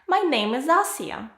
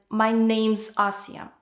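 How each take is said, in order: First: The verb is said as a separate full word. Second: The verb is shortened and joined to the noun. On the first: "That's the full form" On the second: "it's easier to pronounce than my name's Asia"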